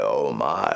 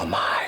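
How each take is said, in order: First: It is said in a rough croak. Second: It is said in a breathy whisper. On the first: "Or like a croak" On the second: "like a whisper"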